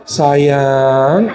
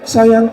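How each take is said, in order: First: "Sayang" drawn out slowly with a rising tail; long caress. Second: "Sayang" clipped off quickly; cut short. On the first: Husband stroking his wife's long hair, "Sayang" long and drawn out. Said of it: "kalau ngelus itu masuk". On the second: Husband stroking his wife's short hair, "Sayang" cut short. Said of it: "Kalau rambutnya pendek". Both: Acted.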